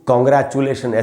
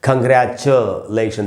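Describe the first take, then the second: First: The first syllable has a rounded 'o' vowel. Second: The first syllable has a short neutral 'u' vowel. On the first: The speaker calls it wrong. "अक्सर हम लोग कॉन्ग्रेचुलेशन ऐसे तो पढ़ ही लेते हैं" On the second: The speaker calls it right. "इसका सही उच्चारण है"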